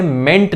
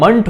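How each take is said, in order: First: मेंट with a full e vowel, ment; the teacher shows the wrong ending, spoken as ment. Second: मंट with a short neutral vowel, munt; the teacher shows the ending spoken as munt. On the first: मेंट said ment, with a clear e vowel. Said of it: "मेंट नहीं". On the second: मंट said munt, with a short schwa. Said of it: "pronunciation मंट होती है". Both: Shown as a demonstration.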